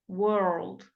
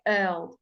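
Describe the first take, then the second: First: It is said with an American accent. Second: It is said with a British accent. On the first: The speaker calls it wrong. "It's not world. the Americans make it like that" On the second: The speaker calls it right. "But English people don't. We go world"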